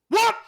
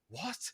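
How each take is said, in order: First: The word is said very angrily. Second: The word is said calmly, without anger.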